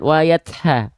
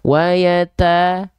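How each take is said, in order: First: The t has a strong, exaggerated puff of breath. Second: The t has only a light puff of breath. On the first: The speaker calls it wrong. "jangan sampai berlebihan ... nggak gitu juga" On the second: The speaker calls it right. "lafalkan percikan saja"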